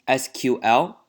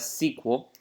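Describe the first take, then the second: First: It is said as three separate letters. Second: It is said as one single word. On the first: "if you don't know how to spell S Q L, it's S Q L" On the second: "You can pronounce this as S Q L"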